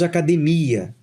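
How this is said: The word is said with Portuguese pronunciation. "En portugués, hablamos academia"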